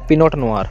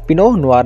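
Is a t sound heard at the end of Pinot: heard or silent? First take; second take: heard; silent. First: A t sound is heard after Pinot. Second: No t sound is heard after Pinot. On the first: The speaker calls it wrong. "ना कि पिनोट नुआर" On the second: The speaker calls it right. "हम बोलेंगे पिनो नुआर"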